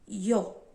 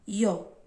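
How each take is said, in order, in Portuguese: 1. Começa com um som parecido com ee. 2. Começa com um som parecido com ee.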